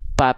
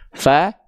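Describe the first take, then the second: First: It starts with both lips closed, a p sound. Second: It starts with teeth on lip, an f sound. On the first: The speaker calls it wrong. "Karena yang nempelnya salah" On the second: The speaker calls it right. "Harusnya bukan bibir atas bibir bawah, tapi fa"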